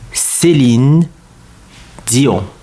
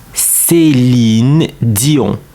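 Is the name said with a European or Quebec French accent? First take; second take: European; European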